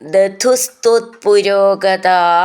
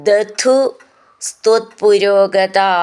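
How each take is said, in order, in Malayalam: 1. ആ രണ്ട് വാക്കുകളും ചേർത്ത് ഒറ്റ വാക്കായിട്ടാണ് പറയുന്നത്. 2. ആ രണ്ട് വാക്കുകളും വേറെ വേറെ വാക്കുകളായിട്ടാണ് പറയുന്നത്.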